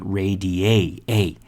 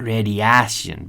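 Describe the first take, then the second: First: Slow "radiate" cut to ray-dee-AY, AY; correct AY in radiation. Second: "radiation" as rad-ee-ASS-yun, with a Spanish-style a; wrong pronunciation of radiation. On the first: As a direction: sound out "radiate" with a long AY ending. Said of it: "but radiate". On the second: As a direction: say "radiation" with flat AH and s, no sh. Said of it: "Not radiation". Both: Shown as a demonstration.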